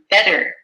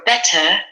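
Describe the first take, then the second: First: The middle consonant sounds like a D. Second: The middle consonant is a clear T. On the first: "which sounds more like a D" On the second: "like the British do"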